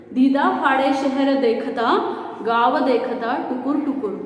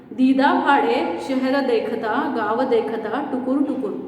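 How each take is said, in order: No difference in how they are said.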